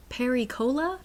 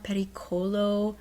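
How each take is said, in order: First: "Peri-cola" split in two, like a cola brand. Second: "pericolo" said smoothly as one Italian word; Italian pronunciation. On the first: Acted. Maid mistaking the warning for a drink, "Peri-cola" as a naive question. Misheard word as a soft drink. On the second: Shown as a demonstration. Working out what the landscaper's word means, "pericolo" pronounced as Italian. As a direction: say "pericolo" in Italian, ending in a round o.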